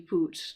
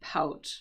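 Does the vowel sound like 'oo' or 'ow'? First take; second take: oo; ow. First: The vowel sounds like 'oo' in 'boot'. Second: The vowel sounds like 'ow' in 'out'. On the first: The speaker calls it wrong. "it looks like it could be poot" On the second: The speaker calls it right. "but it's actually pout pronunciation"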